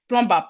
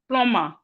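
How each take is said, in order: First: The B sound is pronounced in the middle. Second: The B sound is silent in the middle. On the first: The speaker calls it wrong. "average Nigerian will call this plumber" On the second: The speaker calls it right. "The proper word is plumber"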